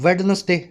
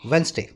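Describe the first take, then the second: First: The d sound is pronounced in the word. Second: The d sound is left silent in the word. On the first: The speaker calls it wrong. "जैसे कई लोग बोलते हैं वेडनेसडे" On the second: The speaker calls it right. "वो silent है, अपने बोलते हैं वेंसडे"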